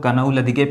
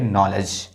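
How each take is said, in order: First: The word starts with a k sound before n. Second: The word starts with an n sound, no k. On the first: The speaker calls it wrong. "इसको कुछ लोग कनऊ लदिके पढ़ देते हैं" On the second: The speaker calls it right. "इसको पढ़ेंगे नॉलेज"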